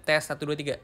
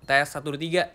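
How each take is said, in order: The two takes are said the same way.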